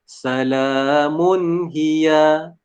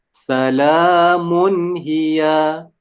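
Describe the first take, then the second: No difference in how they are said.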